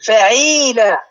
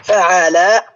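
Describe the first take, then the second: First: فعيلة with the middle turned to a long ee, fa-ʕee-laa; long ee vowel. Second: فعل said with a long aa in the middle, fa-ʕaa-laa; open long aa. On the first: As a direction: stretch the ee after the ʕayn in فعيلة. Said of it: "لاحظ صارت فعيلة". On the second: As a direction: draw out an open aa after the ʕayn in فعل. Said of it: "يعني العين مثلثة". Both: Shown as a demonstration.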